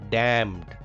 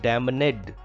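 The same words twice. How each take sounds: First: No N sound is pronounced after the M. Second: An N sound is pronounced after the M. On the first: The speaker calls it right. "N is silent here" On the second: The speaker calls it wrong. "It is not damned"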